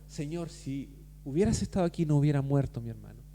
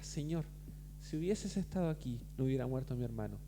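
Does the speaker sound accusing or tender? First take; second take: accusing; tender. First: It sounds reproachful, with judgment and pain. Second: It sounds soft and heartfelt, without reproach. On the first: The speaker is blaming the listener. "con quizás juicio, con quizás dolor" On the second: The speaker is pouring out grief in trust. "lo dice de una manera distinta"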